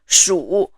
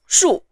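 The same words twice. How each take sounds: First: The syllable is said with the third tone. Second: The syllable is said with the fourth tone. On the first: "the syllable in the third tone" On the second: "the fourth syllable is of the fourth tone"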